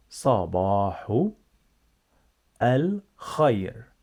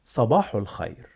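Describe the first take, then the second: First: "Sabahu" stretched, long pause, then "al khair"; slow repeat-after-me model. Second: Said in the usual way. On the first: Shown as a demonstration. Teacher leading repetition, "Sabahu al khair" slowly in two parts. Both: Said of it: "Repeat after me".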